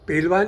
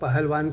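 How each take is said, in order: First: The middle 'h' sound is dropped. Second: The middle 'h' sound is pronounced. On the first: This is how the wrestler himself said it. "इस उच्चारण में आपको शायद आपत्ति हो सकती है" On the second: This is the standard form listeners might expect. "पेलवान नहीं पहलवान कहिए"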